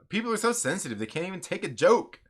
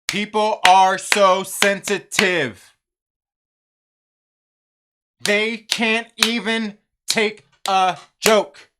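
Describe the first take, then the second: First: It is said smoothly, without breaks. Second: Each word is separated, with a clap after it.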